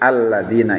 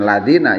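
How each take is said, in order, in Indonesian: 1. Kata ini dimulai dengan bunyi vokal a. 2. Kata ini langsung dimulai dengan bunyi l. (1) "tapi alladzina, itulah hamzah wasol" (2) "jangan ladina ya"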